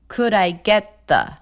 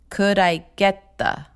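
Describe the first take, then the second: Both takes have the same delivery.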